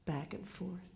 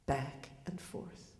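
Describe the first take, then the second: First: Said in the usual way. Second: Slow, breathy fade to a whisper; hushed closing echo; fading whisper. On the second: A narrator's reading. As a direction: let it drift away like the swing. Closing image repeated, fading.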